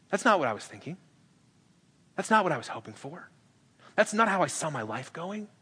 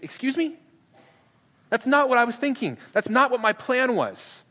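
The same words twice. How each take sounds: First: Softer, deflated disappointment; quiet, dejected complaint; let-down. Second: Much higher, indignant disbelief; high-pitched mock outrage, slowing at the end; shocked objection. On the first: Retold or imitated. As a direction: sag as the plan slips away. Us disappointed by Jesus' plan. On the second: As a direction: recoil at a plan you hate. Peter shocked by Jesus' plan.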